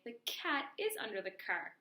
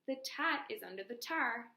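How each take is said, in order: First: Cat and car begin with a K sound. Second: Cat and car begin with a T sound. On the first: The speaker calls it right. "recast and say" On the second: The speaker calls it wrong. "if the child says"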